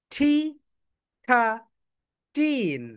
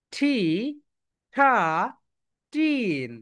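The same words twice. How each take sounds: The two takes are said the same way.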